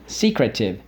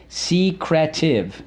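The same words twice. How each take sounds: First: Said in the usual way. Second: "Secretive" slow and high, as SEE, CREH, TIV; syllable by syllable. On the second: Shown as a demonstration. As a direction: spell out "Secretive" by sound in three beats. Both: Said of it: "So let's go".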